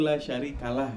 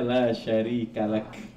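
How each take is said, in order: First: The phrase ends with a soft h sound. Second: The phrase ends with a clear k sound. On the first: The speaker calls it wrong. "yang terdengar di kita tuh la syarikalah" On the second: The speaker calls it right. "harusnya la syarikalak ya, pakai kaf ujungnya"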